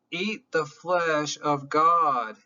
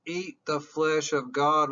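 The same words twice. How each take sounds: First: "Eat the flesh of God" slow, each word weighted; slow emphasis. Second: Said in the usual way. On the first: Shown as a demonstration. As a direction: lean on "God" slowly and gravely.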